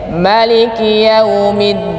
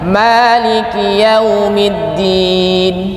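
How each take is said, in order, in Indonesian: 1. Vokal pertama pada Maliki dibaca pendek. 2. Vokal pertama pada Maliki dibaca panjang. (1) "Ada yang membaca pendek" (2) "kalau kita biasanya panjang"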